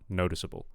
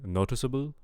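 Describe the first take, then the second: First: The final syllable sounds like bull, with L. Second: The final syllable sounds like boo, without L. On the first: The speaker calls it right. "but I want noticeable" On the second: The speaker calls it wrong. "I'm kind of hearing boo, boo instead of bull"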